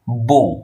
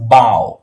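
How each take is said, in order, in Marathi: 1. स्वर 'oh' सारखा वाटतो. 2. स्वर 'ow' सारखा वाटतो. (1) "त्याचा प्रनाउन्सिएशन काय आहे? बो" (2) "पण दॅट इज बाव"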